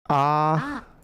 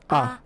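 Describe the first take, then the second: First: The vowel is held long. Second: The vowel is kept short. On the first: "Make it longer" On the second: "If it's not, it's A"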